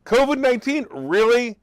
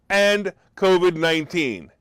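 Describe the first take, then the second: First: "covid nineteen" jumps much higher in disbelief; incredulous. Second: Said in the usual way. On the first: Real, not acted. Vlogger mocking the State Department's covid warning, incredulous. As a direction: echo it back as if it's absurd.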